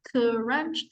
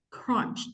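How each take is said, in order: First: An extra vowel breaks up the opening consonant cluster. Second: The opening consonant cluster has no extra vowel. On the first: The speaker calls it wrong. "I heard you say crunch, crunch. So it doesn't have the that one" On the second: The speaker calls it right. "You should not say k or g. Say crunch. Only one"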